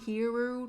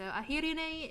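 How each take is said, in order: First: The name has a strong American accent. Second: The r in the name is rolled. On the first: "in a super American accent" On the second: "I tend to roll my L Rs for folks who have Japanese or Korean names"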